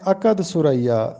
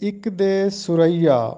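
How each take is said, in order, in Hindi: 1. पहला शब्द 'akad' की तरह बोला जाता है। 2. पहला शब्द 'iqde' की तरह बोला जाता है। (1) "हम इसको पढ़ते हैं अकद सुरैया, जो कि गलत है।" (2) "दुरुस्त लफ्ज़ है इक़्दे सुरैया।"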